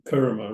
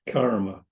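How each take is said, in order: First: The first vowel sounds like 'er'. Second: The first vowel sounds like 'ar'. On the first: "That's how I'm told you pronounce it" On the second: "rather than"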